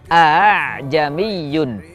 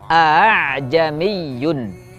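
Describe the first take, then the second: First: The second glottal stop is softened toward a vowel. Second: The same.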